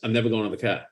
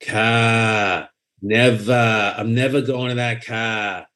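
First: The words are quick and clipped. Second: The words are drawn out slowly. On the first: The speaker calls it right. "It's fast. It's quick. It's like, chop, chop, chop" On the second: The speaker calls it wrong. "the mistake that people make is they drag it"

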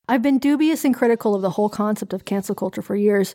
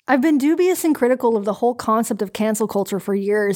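First: It is read in the speaker's ordinary accent. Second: It is read in a put-on Canadian accent.

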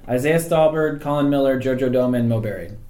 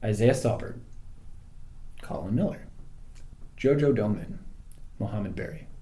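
First: The names are said at normal speed. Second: The names are said slowly.

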